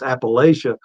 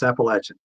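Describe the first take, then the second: First: The middle does not sound like 'apple'. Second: The middle sounds like the word 'apple'. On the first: The speaker is from outside the region. "then we know they're from like New York or something" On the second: The speaker is a local native. "So if I threw an apple at you, that's how they say it"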